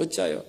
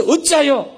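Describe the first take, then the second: First: "어찌하여" almost breathed, much softer and lower; hushed repeat. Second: "어찌하여" asked high and firm with a falling end; God's stern question. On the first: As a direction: drop "어찌하여" to a near whisper. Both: Shown as a demonstration. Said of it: "이래 말씀하시고".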